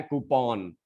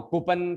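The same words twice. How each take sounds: First: "कूपन" as koo-PON with open aw; updated pronunciation. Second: Said in the usual way. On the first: Shown as a demonstration. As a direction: slowly say "कूपन" ending in -pawn. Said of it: "अब है कूपन". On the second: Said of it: "का जमाना गया".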